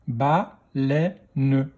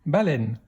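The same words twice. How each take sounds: First: "Baleine" split into ba, lè, ne; "Baleine" in three separate beats; syllable by syllable. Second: Said in the usual way. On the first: Shown as a demonstration. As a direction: sound out "Baleine" with a final ne. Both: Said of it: "Deuxième syllabe".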